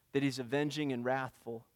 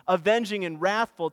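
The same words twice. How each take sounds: First: Soft, low and hushed; quiet. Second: Louder, driving the words home; emphatic. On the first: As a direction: say it softly, almost to yourself. Preacher repeats Nahum's words softly. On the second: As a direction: proclaim it with force. Preacher repeats Nahum's words emphatically. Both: Acted.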